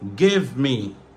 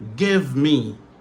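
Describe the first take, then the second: No difference in how they are said.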